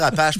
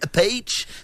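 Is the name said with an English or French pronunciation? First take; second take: French; English. First: The name is said with a French pronunciation. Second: The name is said with an English pronunciation. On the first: "On va dire Apache pour ce matin" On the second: "je suis pas assez anglo pour ça"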